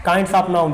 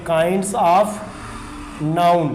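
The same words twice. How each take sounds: First: Said in the usual way. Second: "kinds of", long pause, then "noun"; slow dictation. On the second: Shown as a demonstration. Teacher dictates heading while writing it.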